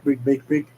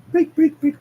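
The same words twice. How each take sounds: First: Said in the usual way. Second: High loud chanting; frantic urging. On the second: Acted. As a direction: urge it on frantically. Sonic urging bottle.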